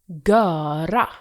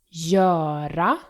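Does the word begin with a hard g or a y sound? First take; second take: hard g; y sound. First: The word begins with a hard g sound. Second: The word begins with a y sound. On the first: The speaker calls it wrong. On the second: The speaker calls it right.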